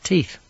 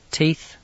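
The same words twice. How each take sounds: First: Said in the usual way. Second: Flat. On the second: Acted. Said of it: "she said flatly".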